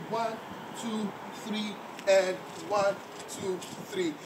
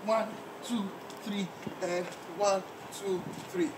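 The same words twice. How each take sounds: The two takes are said the same way.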